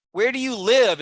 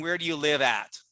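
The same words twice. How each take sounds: First: "Where do you live?" called out higher and louder, with "live" falling firmly; loud, emphatic correct form. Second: Said in the usual way. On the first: Shown as a demonstration. Teacher proclaiming the correct question to the class. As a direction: announce the right version with force. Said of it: "is correct". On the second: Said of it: "only one is correct English".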